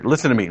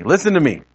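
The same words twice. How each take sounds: First: Said in the usual way. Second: "listen to me" repeated with higher, swooping pitch; insistent repeat. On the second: Shown as a demonstration. Preacher shows congregation why people say things twice, insistent "listen to me". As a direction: press "listen to me" harder, pitch jumping up. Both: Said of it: "That second emphasis".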